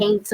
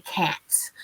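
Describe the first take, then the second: First: Can't said as "caint", rhymes with paint; regional pronunciation. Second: Can't with a short A, rhymes with pant; standard pronunciation. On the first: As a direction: say can't with a long AY vowel, "caint". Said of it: "I used to say". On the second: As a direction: say can't with the vowel of "cat". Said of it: "they say can't". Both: Shown as a demonstration.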